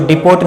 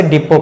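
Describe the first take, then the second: First: "डिपोट" with a hard final t; "डिपोट", t clearly sounded; wrong pronunciation. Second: "डिपो" with no final t; "डिपो" ending on an open o; silent t. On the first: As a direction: say "डिपोट" as di-POT. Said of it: "इसको डिपोट नहीं पढ़ें". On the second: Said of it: "इसे डिपो पढ़ें". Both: Shown as a demonstration.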